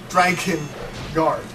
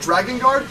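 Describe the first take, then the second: First: The middle consonant is a K sound. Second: The middle consonant is a G sound. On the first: The speaker calls it right. "It's Dragon Guard with a uh, K" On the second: The speaker calls it wrong. "we were partly pronouncing it wrong"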